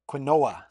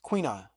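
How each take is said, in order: First: The word is said the way it is spelled. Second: The word is said in its common pronunciation.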